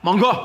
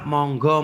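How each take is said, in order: First: The word is said roughly and curtly. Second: The word is said softly and politely. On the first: The listener may feel offended. The speaker calls it wrong. "sama-sama monggo tapi kasar" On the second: A kind invitation to enjoy the food. The speaker calls it right. "bahasa halusnya"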